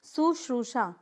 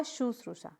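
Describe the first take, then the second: First: शुश्रूषा beginning with s, su-shroo-shaa; wrong pronunciation. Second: शुश्रूषा beginning with sh, softer; corrected pronunciation. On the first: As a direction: demonstrate शुश्रूषा with an opening s. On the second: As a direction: model शुश्रूषा softly as shu-shroo-shaa. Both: Shown as a demonstration. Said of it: "तो क्या होगा?".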